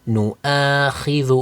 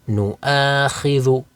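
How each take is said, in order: No difference in how they are said.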